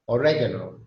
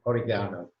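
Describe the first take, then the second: First: It is said in an American accent. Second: It is said in a British accent. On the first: "American English" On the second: "And the British"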